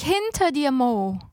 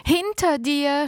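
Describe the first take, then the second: First: Panicked second cry; frantic scream. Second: Shout. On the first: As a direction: scream it even more desperately. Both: A narrator's reading. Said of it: "schrie ich".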